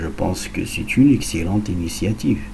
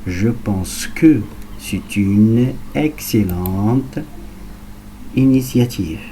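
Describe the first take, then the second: First: It is spoken at natural speed. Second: It is spoken at medium speed. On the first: "à vitesse naturelle" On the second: "à vitesse moyenne"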